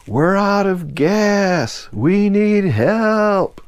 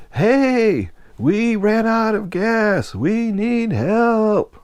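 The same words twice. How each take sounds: First: High, very slow drawn-out shout; yelling for help. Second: High, slow, drawn-out shout; yelling for help. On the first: Dan shouts to the freighter crew again, slow high yell. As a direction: drag each word out to reach the deck. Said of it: "Then Dan yelled". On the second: Stranded friend calls up to the deck worker, long high shout. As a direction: stretch every word to carry to the ship. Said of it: "As loud as he could". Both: Retold or imitated.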